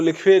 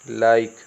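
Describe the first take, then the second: First: It has a plain 'i' and a final vowel. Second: It has an 'ai' sound and no final vowel. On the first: The speaker calls it wrong. "इसको लिखे नहीं पढ़ेंगे" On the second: The speaker calls it right. "क्या होगा? लाइक"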